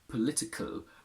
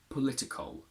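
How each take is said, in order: First: The k and l sit together with no vowel. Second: A small schwa separates the k and l. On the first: This is the older way of saying it. "in the past we would say political, where kl are very close together" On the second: This is the modern way of saying it. "We add a little schwa between k and l"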